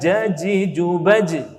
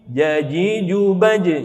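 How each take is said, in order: First: The j sound is made with a hiss. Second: The j sound is made without a hiss. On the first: The speaker calls it wrong. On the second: The speaker calls it right.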